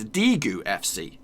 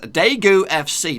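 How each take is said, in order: First: The name is said with Korean-style sounds. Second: The name is said with English-style sounds. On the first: The speaker calls it right. "This is how you're supposed to pronounce it" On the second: The speaker calls it wrong. "is that how you pronounce it? Probably not"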